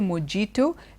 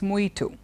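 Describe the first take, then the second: First: The j is sounded like j in jam. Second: The j is not sounded like j in jam. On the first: The speaker calls it wrong. "you don't say mojito" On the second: The speaker calls it right. "it's mojito"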